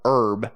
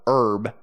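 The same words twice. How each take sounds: First: The h is silent, American style. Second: The same.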